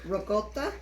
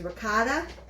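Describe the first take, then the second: First: It is said with an Italian-style pronunciation. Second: It is said with an American English pronunciation. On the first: This is closer to how Italians say it. "the more Italian way of saying is ricotta" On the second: This is how many people commonly say it. "a lot of people also say it as ricotta"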